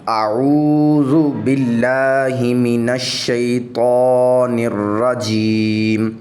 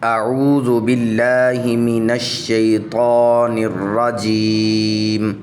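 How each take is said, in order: No difference in how they are said.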